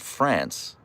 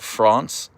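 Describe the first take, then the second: First: It is said the American way. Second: It is said the non-American way. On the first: The speaker calls it right. "and not France" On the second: The speaker calls it wrong. "he calls it France"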